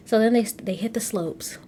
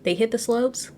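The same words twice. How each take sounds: First: Whispered, they hit the slopes trailing down; unsure whisper. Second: They hit the slopes asked with a rising, unsure lift; questioning. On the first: Unsure of the ski term, she whispers it. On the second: Checking the ski term with viewers, a questioning rise. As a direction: ask it back, doubting the term. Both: Shown as a demonstration. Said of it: "I don't even know if I'm saying that right".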